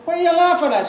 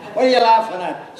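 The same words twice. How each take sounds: First: Much higher, pushier repeat of the question; now insist, spoiling for a row; second take, the drunk's temper rising; repeated angry demand. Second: Put-on suspicious drunk asking what's funny; first take, still mostly puzzled; irked question. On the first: Acted. Drunk Bob repeats, building. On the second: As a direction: demand it, half-roused from a doze. Drunk Bob questions Alf.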